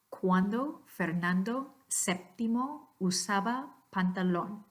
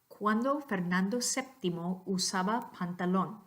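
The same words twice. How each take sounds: First: It is said slowly and carefully. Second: It is said at natural speed.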